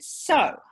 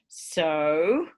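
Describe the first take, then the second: First: It sounds like summing up. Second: It sounds like asking for something.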